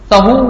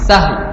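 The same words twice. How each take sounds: First: The h is followed by a vowel sound. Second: The h has no vowel after it. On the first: The speaker calls it wrong. "سہو لوگ کہتے ہیں اس کو" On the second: The speaker calls it right. "ہا پر جزم ہے، سین پر زبر ہے"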